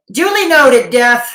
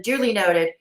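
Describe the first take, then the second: First: Higher and louder, a grand mock-formal "Duly noted"; hammed-up formal nod; mock pompous acknowledgement. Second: Said in the usual way. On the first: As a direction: announce it like a butler, loud and high.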